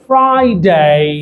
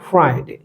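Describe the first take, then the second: First: The final 'day' vowel is drawn out longer. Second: The final 'day' vowel is short and clipped. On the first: The speaker calls it right. "এটা একটু টেনে বলতে হবে" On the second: The speaker calls it wrong. "এটা ছিল ভুল"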